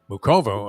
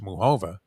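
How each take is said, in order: First: The middle consonant is a hard k sound. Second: The middle consonant is a breathy h sound. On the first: This is how the speaker has been saying it. "I've been saying" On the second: This is how a colleague says it. "Leslie says it's"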